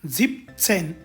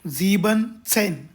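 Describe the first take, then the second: First: 'Sieben' is shortened to 'sieb' before 'zehn'. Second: The full 'sieben' is said before 'zehn'. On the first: The speaker calls it right. "झिपसेन असे म्हणावे" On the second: The speaker calls it wrong. "इथं झीबन सेन असं म्हणू नये"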